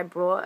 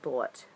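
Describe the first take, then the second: First: "brought" said with an r by mistake; "brought" as a slip instead of bought; "brought", the slip before the correction; slip of the tongue. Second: "Bought" with no r, lower and quieter; a soft muttered "Bought" fixing the slip; self-correction. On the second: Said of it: "I know English well". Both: Shown as a demonstration.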